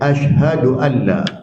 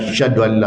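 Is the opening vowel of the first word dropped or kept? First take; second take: kept; dropped. First: The first word starts with its opening vowel. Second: The first word starts without its opening vowel. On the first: The speaker calls it right. "dia asyhadu an la" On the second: The speaker calls it wrong. "Bukannya syahadu an la"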